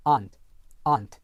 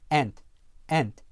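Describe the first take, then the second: First: AUNT as "ahnt", long open vowel; British long ah. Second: ANT with a front "a" as in cat; American short-A. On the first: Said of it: "영국 표준 영어에서는요". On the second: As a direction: say ant American-style, close to "ent". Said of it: "일반 미국 영어에서는요". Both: Shown as a demonstration.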